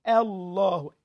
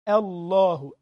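The two takes are said the same way.

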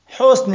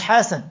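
First: The first vowel is a 'u' sound. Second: The first vowel is an 'a' sound. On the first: Goodness. The speaker calls it right. "على حسن" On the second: A personal name. The speaker calls it wrong. "مش حسن"

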